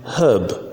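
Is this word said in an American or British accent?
British. It is said without an r sound. "All these I pronounce them in British English"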